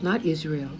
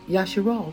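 First: The name begins with an 'iz' sound. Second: The name begins with a 'ya' sound. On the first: The speaker calls it wrong. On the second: The speaker calls it right.

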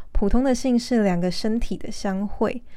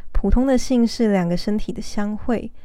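The two takes are said the same way.

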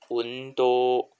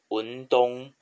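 First: It has long vowels, sounding like Japanese undou. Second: It sounds like Chinese yundong, without long vowels. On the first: The speaker calls it right. "它最后一个是乌的长音，好，多多的长音" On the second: The speaker calls it wrong. "不要发音成文东"

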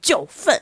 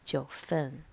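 First: It is said in an exaggerated, theatrical way. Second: It is said in a plain, ordinary way.

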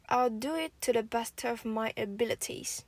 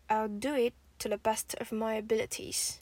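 No difference in how they are said.

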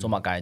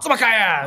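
First: It is said in a plain, neutral tone. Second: It is said in a harsh tone like cursing.

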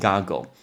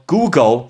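First: The first vowel is short, as in 'got'. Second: The first vowel is long, as in 'goo'. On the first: The speaker calls it right. "我若不念给你听goggle" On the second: The speaker calls it wrong. "超多人说Google"

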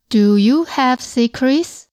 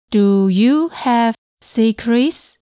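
First: The sentence is said at normal speed. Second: The sentence is said slowly.

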